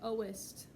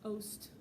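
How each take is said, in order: First: The word is said with two syllables. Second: The word is said with one syllable. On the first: "Normally there would be an E where the apostrophe is" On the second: "they have to cut it so they have few enough syllables"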